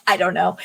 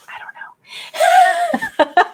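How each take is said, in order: First: Said in the usual way. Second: Giggled, whispered and very drawn out; high breathy giggle through the words; laughing whisper. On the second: Real, not acted. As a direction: laugh the words out under your breath, very slowly. Joking about pointing the wrong way.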